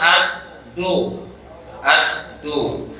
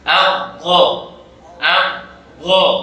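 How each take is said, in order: First: The consonant is a plain d made with the tongue tip. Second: The consonant is heavy, emphatic, started from the tongue's side. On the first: The speaker calls it wrong. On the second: The speaker calls it right.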